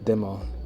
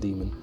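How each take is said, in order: First: The word ends without any N sound. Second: The word ends with a clear N sound. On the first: The speaker calls it wrong. "almost like demo, demo, demo, with a silent N" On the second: The speaker calls it right. "instead of demon"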